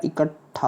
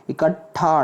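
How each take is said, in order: First: इकट्ठा said "ikat-thaa", held stop; correct pronunciation. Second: इकट्ठा said "ika-thaa", single th; wrong pronunciation. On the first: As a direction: hold the t before thaa in इकट्ठा. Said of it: "एक ट बनेगा". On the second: Teacher shows the error, इकट्ठा as "ika-thaa". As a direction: make the th in इकट्ठा brief. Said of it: "ठा नहीं होता". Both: Shown as a demonstration.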